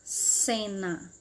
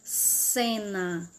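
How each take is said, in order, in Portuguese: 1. A primeira consoante é um som de s. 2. A primeira consoante é um som de s.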